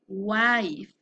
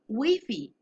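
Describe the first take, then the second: First: The word ends cleanly on its final consonant. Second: An extra vowel sound follows the final consonant. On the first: The speaker calls it right. "his sound is wife" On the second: The speaker calls it wrong. "If I pronounce the letter E, ... is a bad pronunciation"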